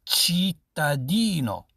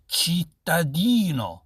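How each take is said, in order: Both takes have the same delivery.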